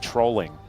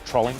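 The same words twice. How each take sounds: First: The middle of the word is drawn out. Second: The middle of the word is said quickly. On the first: "We'd say trolling. It's like it feels a bit more pronounced in the middle there" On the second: "That's how the, the British pronounce it, right?"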